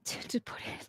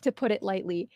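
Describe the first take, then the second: First: Breathy laugh through the words. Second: Said in the usual way. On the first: Real, not acted. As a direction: giggle while saying it. Laughs mid-phrase.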